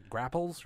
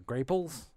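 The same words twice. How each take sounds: First: "grapples" with the short A of apple; short-A pronunciation. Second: "grapels" with the long A of grape; long-A pronunciation. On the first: Offering a name for the grocery apples, short-A "grapples". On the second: Offering the other name for the apples, long-A "grapels". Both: Shown as a demonstration. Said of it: "it's either grapple or grapple".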